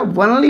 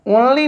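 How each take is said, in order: First: वनली opening like the word one; वनली with a w glide before the vowel; w sound. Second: ओनली opening on a plain o; higher-pitched ओनली, starting with the vowel o; wrong o sound. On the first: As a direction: say वनली as wun-lee, not on-lee. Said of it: "वनली होता है". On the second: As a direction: say ओनली as on-lee, with no w. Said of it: "ओनली नहीं होता है". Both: Shown as a demonstration.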